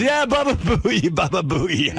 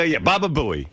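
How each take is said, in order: First: Put-on high, slow, gleeful "Baba Booey" in a thick Italian accent; hammed-up Italian salesman relishing "Baba Booey". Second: Said in the usual way. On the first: Salesman repeating the nickname back, slow thick Italian accent. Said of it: "he had some foreign accent".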